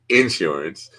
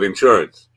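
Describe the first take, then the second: First: Appalachian accent, stress on the first syllable. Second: New York accent, stress on the second syllable.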